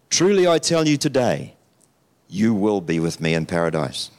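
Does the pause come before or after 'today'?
after. The pause comes after the word today.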